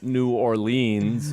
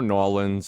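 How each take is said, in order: First: It is said the New York way, in full. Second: It is said the local Louisiana way, clipped.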